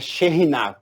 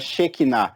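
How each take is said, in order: First: The middle consonant is a harsh R sound. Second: The middle consonant is a plain K sound. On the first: The speaker calls it right. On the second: The speaker calls it wrong.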